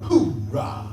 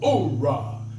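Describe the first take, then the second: First: The word starts with an H sound. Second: The word starts without an H sound.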